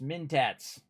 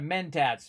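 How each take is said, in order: First: The first syllable sounds like 'mint'. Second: The first syllable sounds like 'men'. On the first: The speaker calls it wrong. "That's how I call them" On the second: The speaker calls it right. "instead of Mentats"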